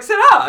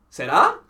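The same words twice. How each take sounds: First: "Sarah." said much higher and louder with a flat, falling finish; firm repeat. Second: "Sarah?" with a louder, rising question tune; puzzled question. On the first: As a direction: insist on the name, exasperated. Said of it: "And she's like". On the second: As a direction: ask the name back as a question. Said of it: "And he's like". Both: Retold or imitated.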